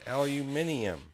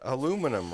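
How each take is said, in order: First: The word is said a non-American way. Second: The word is said the American way. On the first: The speaker calls it right. "It's aluminium" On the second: The speaker calls it wrong. "We can't even say the uh, aluminum right"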